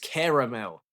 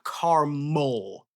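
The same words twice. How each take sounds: First: The word has three syllables, both a's voiced. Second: The word has two syllables, middle vowel dropped. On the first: The speaker calls it right. "It's caramel. There's two A's" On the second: The speaker calls it wrong. "It's not caramel"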